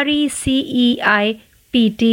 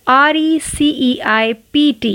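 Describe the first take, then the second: Both takes have the same delivery.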